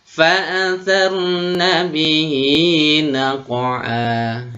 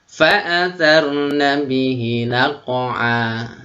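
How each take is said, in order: First: The final vowel of bihi is held long. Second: The final vowel of bihi is cut short. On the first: The speaker calls it right. "bihi panjang sebanyak dua harokat atau satu alif" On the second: The speaker calls it wrong. "Salah karena kurang panjang ya"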